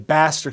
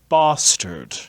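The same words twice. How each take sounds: First: The first vowel is a flat front 'a' sound. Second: The first vowel is a broad back 'ah' sound. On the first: "He doesn't say bastard" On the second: "He says bastard"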